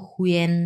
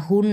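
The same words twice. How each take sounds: First: হুয়েন with u gliding into en; correct pronunciation. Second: হুন with a single u vowel; mistaken pronunciation. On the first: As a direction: sound the e before n in হুয়েন. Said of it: "এটার উচ্চারণ হবে হুয়েন". (এ-ধ্বনি সহ হুয়েন) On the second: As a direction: say হুন with no e before the n. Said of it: "মনে করতে পারছেন এটা তো হুন". (এ-ধ্বনি ছাড়া হুন) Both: Shown as a demonstration.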